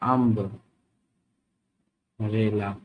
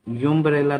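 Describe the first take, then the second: First: The word begins with an 'uh' sound. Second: The word begins with a 'yoo' sound. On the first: The speaker calls it right. "अगर इसका उच्चारण हो अम्ब रेला" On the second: The speaker calls it wrong. "इसको यूम्ब्रेला तो नहीं पढ़ेंगे"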